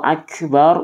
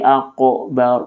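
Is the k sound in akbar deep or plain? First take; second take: plain; deep. First: The k is a plain sound at the front. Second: The k is a deep sound in the throat. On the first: The speaker calls it right. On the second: The speaker calls it wrong. "menjadi qaf ... tidak sah"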